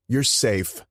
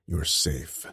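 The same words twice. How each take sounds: First: High, loud brotherly "You're safe"; Enzo's reassurance. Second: Said in the usual way. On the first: Acted. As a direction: raise it up and push "You're" out bright. Enzo reassures the new brother.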